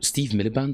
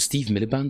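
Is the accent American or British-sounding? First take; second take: British-sounding; British-sounding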